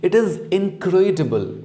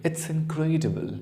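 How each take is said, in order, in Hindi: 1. यह दो अलग-अलग पूरे शब्दों की तरह बोला जाता है। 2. यह एक छोटे अक्षर में संकुचित हो जाता है।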